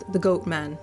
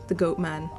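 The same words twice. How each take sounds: The two takes are said the same way.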